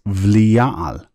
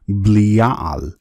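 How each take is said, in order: First: The word begins with a V sound. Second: The word begins with a B sound. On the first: "therefore it's a V sound" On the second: "thus a B sound"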